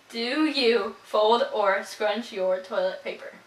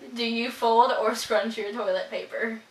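First: It is said slowly. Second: It is said at normal speed.

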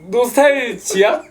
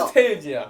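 First: It is read syllable by syllable, as written. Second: It is said closer to the English pronunciation. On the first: The speaker calls it wrong. "너무 발음대로 읽지 마세요" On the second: The speaker calls it right. "English is very good"

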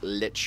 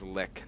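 First: Short i vowel, ending in a ch sound. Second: Short i vowel, ending in a k sound. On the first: The speaker calls it wrong. "not Lich" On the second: The speaker calls it right. "It is Lick"

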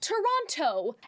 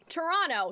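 First: The second T sound is clearly pronounced. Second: The second T sound is dropped. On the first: This is how locals avoid saying it. "They won't pronounce it like Toronto" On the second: This is how many locals say it. "a lot of people will say Toronto"

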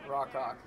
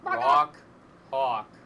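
First: The two words run together quickly. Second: The two words are said slowly and apart. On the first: The speaker calls it wrong. "There's no way to say that that doesn't sound awful" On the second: The speaker calls it right. "enunciate it and pronounce it slowly every time"

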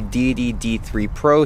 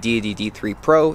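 First: Only the deepest bass of the voice is trimmed. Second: Much of the low bass is trimmed away. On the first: "The 75Hz low pass filter is turned on" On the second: "this is with the 150Hz low pass filter turned on"

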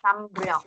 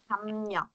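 First: The second syllable starts with an R sound. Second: The second syllable starts with an N sound. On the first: The speaker calls it wrong. "Chứ mình không có đọc là thăm rèo các bạn" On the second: The speaker calls it right. "Thì chữ riêu này mình sẽ đọc là niên"

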